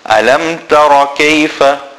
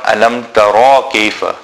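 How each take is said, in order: First: The vowel after the r is kept short. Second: The vowel after the r is drawn out. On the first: The speaker calls it right. "we should not pull the Ra unduly" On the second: The speaker calls it wrong. "he starts adding an Alif after the Ra"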